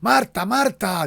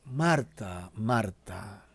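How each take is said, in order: First: It is said as a loud exclamation. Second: It is said calmly, without exclamation.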